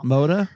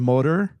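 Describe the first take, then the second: First: The final R is dropped, Maine style. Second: The final R is pronounced clearly. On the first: "you take R's out of words that end in R" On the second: "instead of motor"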